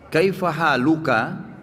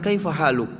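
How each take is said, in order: First: The phrase ends with a full vowel ending. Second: The phrase ends on a bare consonant.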